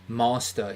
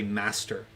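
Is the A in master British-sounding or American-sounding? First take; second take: British; American. First: The A sounds like a British one. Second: The A sounds like an American one.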